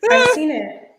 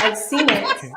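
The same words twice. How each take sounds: First: Higher, louder, insisting; repeated with more force; emphatic repeat. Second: Said in the usual way. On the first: Real, not acted. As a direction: press the claim home.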